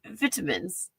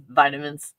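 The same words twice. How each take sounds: First: Vitamins as VIT-a-mins in a British accent; a quiet British VIT-a-mins. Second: Said in the usual way. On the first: Shown as a demonstration. Showing viewers the British way, British accent. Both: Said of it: "how British people say".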